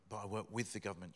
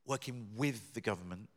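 First: With lengthened, quick and falling; with held long, then fast falling finish; stress on with. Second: With lengthened and rising; correcting himself, with lengthened and rising; stress on with. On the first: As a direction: stretch with and let it fall. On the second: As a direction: lean on with, held a little long. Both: Shown as a demonstration. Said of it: "not employed for or by the government".

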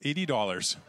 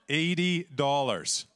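First: Said in the usual way. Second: Slow, laughing repeat; amused at the tiny prize. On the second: Real, not acted. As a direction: laugh through the small sum.

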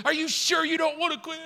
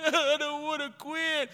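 First: High-pitched, insistent mock challenge; chief pressing. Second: High, blubbering mock protest; crying recruit. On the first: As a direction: push him as the stern chief. Chief presses crying recruit. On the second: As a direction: whine it through put-on tears. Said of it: "'cause I'm crying".

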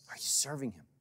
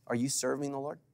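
First: Hushed whispered repeat of the question. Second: Said in the usual way. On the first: Acted. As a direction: drop to a whisper to press it home.

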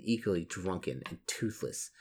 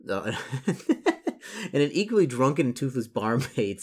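First: Said in the usual way. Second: Real laugh breaking into the reading. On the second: Real, not acted. Reader amused by the drunken toothless barmaid, laughing as he reads. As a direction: read on slowly, higher, through a chuckle.

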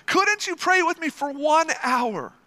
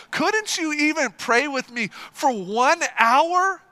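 First: Laughing repeat. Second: Slow, pressing rebuke; emphatic plea. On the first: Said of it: "repeats the plea". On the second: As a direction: drive home the disappointed question. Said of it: "repeats Jesus' plea with force". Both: Shown as a demonstration.

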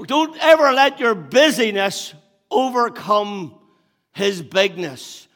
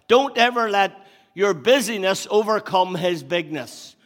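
First: Louder, higher and slowed right down, "bigness" drawn out; said again slower. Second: Loud, higher preaching of the line; first take, driving it home; preached line. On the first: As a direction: hammer it home the second time, word by word. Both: Shown as a demonstration. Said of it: "I'll say it again".

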